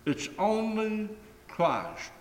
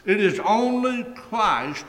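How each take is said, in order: First: "only" drawn out slowly and leaned on; slow down and weigh the word "only"; lingering on "only"; stress on only. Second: "only" punched louder and slow; louder, deliberate push on "only"; stress on only. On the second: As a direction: hit "only" hard and loud. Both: Shown as a demonstration. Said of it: "I want to emphasize that word only".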